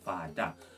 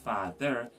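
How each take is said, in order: First: The word has a d sound and ah ending. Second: The word has a th sound and er ending. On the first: "So father would be pronounced father" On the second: "So instead of saying father"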